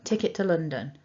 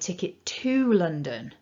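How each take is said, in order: First: The word 'to' is reduced and unstressed. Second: The word 'to' is full and stressed. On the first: It is a routine request with no confusion. "Weak form" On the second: The direction matters because there was a mix-up. "We need to use the strong form"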